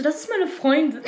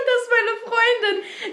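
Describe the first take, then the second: First: Said in the usual way. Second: Laughing through it. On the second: Retold or imitated. Repeats retort while laughing.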